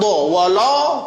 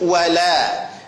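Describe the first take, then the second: First: The lam sounds heavy. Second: The lam sounds thin. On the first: The speaker calls it wrong. "wala tidak" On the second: The speaker calls it right. "Lam tipis dha-nya tebal"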